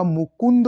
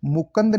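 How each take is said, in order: First: मुकुंद as "mu-kund"; correct pronunciation. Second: मुकुंद as "mu-kand"; wrong pronunciation. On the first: Teacher correcting the word, मुकुंद as "mu-kund". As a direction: clear second u in मुकुंद. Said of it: "होता है". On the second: Teacher showing the error, मुकुंद as "mu-kand". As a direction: say मुकुंद with a after k. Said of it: "नहीं होता". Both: Shown as a demonstration.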